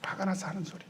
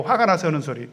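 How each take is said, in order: First: A soft, knowing conclusion to his own question; muttered answer. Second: Said in the usual way. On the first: Shown as a demonstration. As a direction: drop the voice and settle it quietly. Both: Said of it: "알고 하는 소리예요?".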